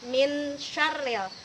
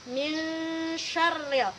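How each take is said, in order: First: The n is pronounced clearly as a plain n. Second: The n blends into sh with a nasal hum. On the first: The speaker calls it wrong. "bukan bunyinya seperti bunyi non mati aja, bukan min syarril" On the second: The speaker calls it right. "Yang betul bacaannya adalah kita baca min syarril"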